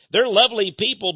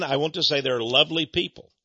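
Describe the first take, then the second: First: They're lovely people said higher and louder, with THEY'RE stressed; emphatic repeat. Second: Said in the usual way. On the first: Shown as a demonstration. Preacher stresses They're lovely people for his listeners. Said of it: "repeats the phrase". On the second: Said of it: "repeated with emphasis".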